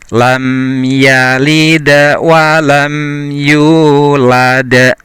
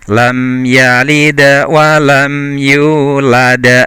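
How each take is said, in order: First: It is recited at a slower tempo. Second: It is recited at a faster tempo.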